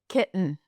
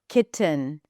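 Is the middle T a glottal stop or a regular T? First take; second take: glottal stop; regular T. First: The middle T is a glottal stop. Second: The middle T is a regular released T.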